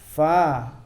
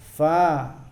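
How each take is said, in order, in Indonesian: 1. Bunyi pertama dibuat dengan bibir dan gigi. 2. Bunyi pertama dibuat dengan bibir dan gigi.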